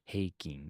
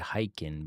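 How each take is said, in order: First: The first syllable sounds like 'hey'. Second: The first syllable sounds like 'high'. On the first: This is how it is said in Japanese. The speaker calls it right. "but it's heiking" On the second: This is how Americans say it. The speaker calls it wrong. "they say hiking"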